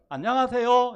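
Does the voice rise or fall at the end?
rise. The voice rises at the end like a question.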